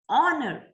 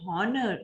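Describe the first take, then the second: First: The word begins with a vowel, no h sound. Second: The word begins with an audible h sound. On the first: The speaker calls it right. "It's honor. H is silent" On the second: The speaker calls it wrong. "We never say honor"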